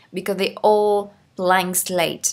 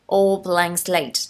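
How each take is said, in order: First: 1 slow model reading. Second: 1 very slow stressed repeat. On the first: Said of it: "teacher reads phrase slowly". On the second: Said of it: "teacher repeats key phrase slower". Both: Shown as a demonstration.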